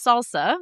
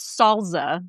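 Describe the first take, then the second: First: "salsa" with an S sound in both syllables; American-accented "salsa", unvoiced S. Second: "salsa" with a Z, as "sol-zuh"; dad's SALSA. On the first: Shown as a demonstration. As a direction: say "salsa" with a plain S, American style. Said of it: "Just with an American accent". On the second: Retold or imitated. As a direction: say "salsa" slowly as "solza". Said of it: "like, with a Z".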